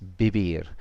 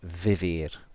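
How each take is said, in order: First: The word begins with a b sound. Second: The word begins with a v sound. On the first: This is how it is said in Spain. "in Spain, it's it's a B, so it's bibir" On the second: This is how it is said in Latin America. "most of the rest of the Spanish-speaking world ... you'd probably hear vivir"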